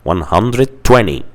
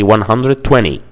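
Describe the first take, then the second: First: It is said with a relaxed American pronunciation. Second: It is said with a relaxed American pronunciation.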